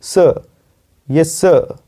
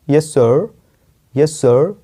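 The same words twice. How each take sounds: First: सर as "səə", no R; R left silent. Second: सर with American curled-tongue R. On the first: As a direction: say सर British style, "suh". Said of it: "सर र नहीं बोलना है". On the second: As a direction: say सर the American way, "surr". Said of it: "American में बोल सकते हो जीभ को मोड़ के". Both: Shown as a demonstration.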